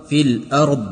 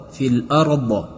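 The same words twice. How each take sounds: First: الارض closed on a still, heavy ض with no bounce; correct still ض. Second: الارض ending in an added bounce vowel after ض; wrong echo on ض. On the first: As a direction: say الارض cleanly, ending held without an echo. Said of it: "قلقله نشود". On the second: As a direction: show how people wrongly bounce الارض. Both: Shown as a demonstration.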